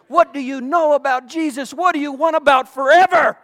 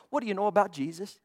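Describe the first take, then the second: First: Louder challenge. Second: Quick and soft. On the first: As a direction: hit it again, louder, as a challenge. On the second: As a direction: toss it off fast and softer. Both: Real, not acted. Repeated rhetorical question.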